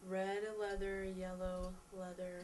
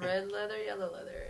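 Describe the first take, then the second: First: It is said slowly and carefully. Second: It is said at a very quick pace.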